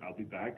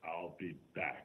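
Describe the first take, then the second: First: It is said in a plain, casual way. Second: It is said in a dramatic, intense way.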